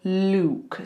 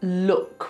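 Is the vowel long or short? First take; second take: long; short. First: The vowel is long, as in suit. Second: The vowel is short, as in soot. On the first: The speaker calls it wrong. "we don't go look" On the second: The speaker calls it right. "Same with look"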